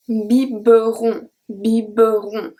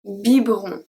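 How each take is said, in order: First: Biberon with the middle E sounded, bi-be-ron, slowly; deliberately wrong bi-be-ron; wrong pronunciation. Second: Biberon with the silent E, bib-ron; correct pronunciation. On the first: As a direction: stretch out biberon, voicing every syllable. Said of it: "I don't say that". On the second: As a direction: say biberon clipped to two syllables. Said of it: "I say". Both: Shown as a demonstration.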